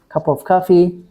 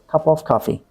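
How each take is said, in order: First: The phrase ends on a level pitch. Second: The phrase ends on a low pitch. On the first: The speaker calls it wrong. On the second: The speaker calls it right. "It should be cup of coffee. Low tone"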